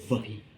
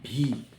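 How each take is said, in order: First: The letter begins with a buzzing v sound. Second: The letter begins with a breathy b-like sound. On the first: "But v" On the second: "People say bhi"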